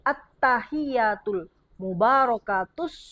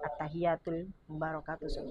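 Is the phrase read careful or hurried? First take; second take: careful; hurried. First: It is read slowly, each doubled consonant clear. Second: It is read quickly, running the sounds together. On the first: The speaker calls it right. "intonasinya jelas" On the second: The speaker calls it wrong. "jangan keburu-buru"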